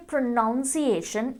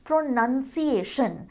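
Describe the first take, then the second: First: "pronunciation" said as pro-NOUN-ciation, slowly; wrong pronunciation. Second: "pronunciation" said as pro-NUN-ciation, slowly; correct pronunciation. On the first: Teacher shows students the wrong way, slow. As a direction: show the common mistake, pro-NOUN-ciation. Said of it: "we don't say pronunciation". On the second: Teacher gives students the correct form, slow. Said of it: "it's pronunciation". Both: Shown as a demonstration.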